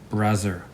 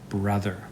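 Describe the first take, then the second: First: The th sound is replaced by another sound. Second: The word uses a voiced th sound. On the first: The speaker calls it wrong. "That one's not right either" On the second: The speaker calls it right. "It should be brother"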